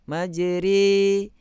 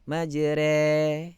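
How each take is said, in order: First: The vowel after r is slightly more open. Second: The vowel after r is more open still. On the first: "naikkan sikit" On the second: "naikkan lagi"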